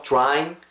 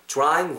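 First: DRYING starting "jr", as "jrying". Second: DRYING in Korean-style syllables, "deu-ra-ing"; Koreanized pronunciation. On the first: Teacher modelling for learners, "drying" with a J-like start. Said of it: "약간 주 정도로 발음하세요". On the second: Teacher showing what to avoid, "drying" Koreanized. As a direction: split the "dr" of "drying" with a vowel. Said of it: "라고 발음하지 마시고". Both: Shown as a demonstration.

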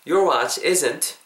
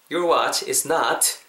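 First: "isn't" joined into one word, said slowly; contracted isn't. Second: "is not" as two full words, slowly; uncontracted is not. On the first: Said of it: "Is not을 붙여서 발음하실 때". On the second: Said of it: "Is not을 붙여서". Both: Shown as a demonstration.

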